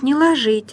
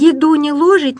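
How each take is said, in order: First: «ложить» stressed on ЖИТЬ: ложИть; stress on last syllable. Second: «ложить» as ЛОжить, higher and louder; stress on first syllable. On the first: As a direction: reduce the first vowel of «ложить», stress the ending. («ложить» с ударением на последний слог) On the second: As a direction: recite the rhyme, hitting ЛО in «ложить». («ложить» с ударением на первый слог) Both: Shown as a demonstration. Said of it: "я такую запоминалку нашла".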